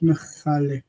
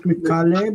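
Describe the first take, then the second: First: "Mechale" with a throaty ch instead of K; guttural ch sound. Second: "Mikale" with a plain hard K; wrong take, "Mikale" with a K in the middle; hard K sound. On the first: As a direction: say "Mechale" with ch as in Bach. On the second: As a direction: say "Mikale" with K as in kite. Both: Shown as a demonstration. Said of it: "Not Mikale, but Mechale".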